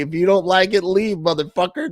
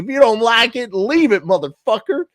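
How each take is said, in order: First: It is read in his plain accent. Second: It is read in a Southern drawl.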